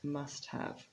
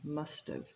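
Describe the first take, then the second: First: Both words are said fully and separately. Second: The two words blend, with 'have' reduced. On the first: The speaker calls it wrong. "it's not usually pronounced must have" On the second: The speaker calls it right. "It's much more natural to say must have"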